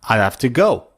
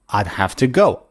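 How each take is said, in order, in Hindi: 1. 'I would' को एक छोटे से अक्षर में समेट दिया जाता है। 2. 'I would' को एक छोटे से अक्षर में समेट दिया जाता है।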